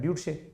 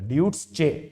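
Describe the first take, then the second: First: The last syllable begins with a 'sh' sound. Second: The last syllable begins with a 'ch' sound. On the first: "S C H E लिखा है, तो शे हो गया ये" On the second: "इसमें च की साउंड आ रही है"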